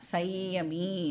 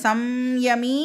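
First: No m sound comes before the y. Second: An m sound comes before the y. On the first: "இல்லைனா சையமி அப்படின்னும் வந்து அதை நாம் pronounce பண்ணலாம்" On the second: "இந்த சம்யமி அப்படின்னு சொல்லலாம்"

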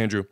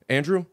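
First: The name is said firmly and confidently. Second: The name is said tentatively, half sure. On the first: The name has been confirmed. "then you say it the most confidently" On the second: The speaker thinks they know the name. "the first time you say the name that you think you know"

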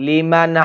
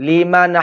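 The two takes are said the same way.

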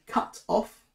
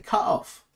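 First: The T in cut is clearly pronounced. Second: The T in cut is dropped, English style.

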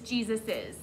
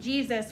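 First: The name ends with an added 'iz' syllable. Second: The name ends with a single s sound. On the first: The speaker calls it right. "that'll make it sound better" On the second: The speaker calls it wrong. "That sounds weird"

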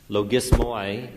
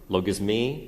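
First: It is said in an Erasmian-style pronunciation. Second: It is said in a modern Greek pronunciation. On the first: "One can't get over an Erasmian pronunciation" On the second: "but logismi, is that right?"

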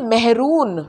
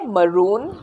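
First: The first syllable sounds like 'meh'. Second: The first syllable sounds like 'ma'. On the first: The speaker calls it wrong. "इसको बोलते हैं मेहरून" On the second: The speaker calls it right. "ये है मरून"

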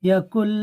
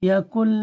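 The two takes are said the same way.

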